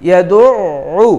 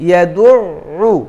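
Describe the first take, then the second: The two takes are said the same way.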